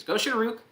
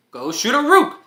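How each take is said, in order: First: Spell recalled lightly. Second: Very high, loud battle cry; spell shout. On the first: Shown as a demonstration. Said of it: "Off to the races". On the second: Acted. Hero casts the speed spell with a loud high battle cry. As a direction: yell the spell name with full force.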